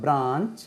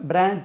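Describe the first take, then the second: First: பிரான்ச் with a long "aa" vowel; model pronunciation. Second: பிரான்ச் as others say it, with a shorter vowel; other common pronunciation. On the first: (பிரான்ச், நீண்ட ஆ ஒலியுடன்) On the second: (பிறர் சொல்லும் பிரான்ச் உச்சரிப்பு) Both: Shown as a demonstration. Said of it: "அது உச்சரிப்பு பாருங்க".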